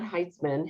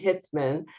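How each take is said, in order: First: The first vowel sounds like 'eye'. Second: The first vowel sounds like 'ih'. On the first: The speaker calls it wrong. "not Heitzman" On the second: The speaker calls it right.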